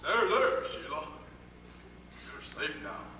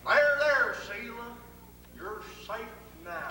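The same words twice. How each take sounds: First: It is said in a put-on character voice. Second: It is said in his ordinary voice.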